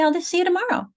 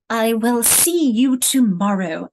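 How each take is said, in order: First: The start is contracted into one short syllable. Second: The start is said in full as two words. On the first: The speaker calls it right. "You say" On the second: The speaker calls it wrong. "We don't say"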